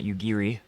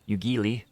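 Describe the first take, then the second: First: The middle consonant is an English R sound. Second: The middle consonant is a clear L sound. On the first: "there really is no R sound" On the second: "There's no L sound"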